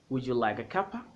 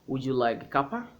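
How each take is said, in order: First: The words 'cup of' are merged into 'cuppa'. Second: The same.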